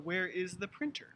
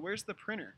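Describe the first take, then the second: First: The T in printer is pronounced. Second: The T in printer is dropped. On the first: This is formal speech. "in formal English" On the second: This is casual conversational speech. "silent T"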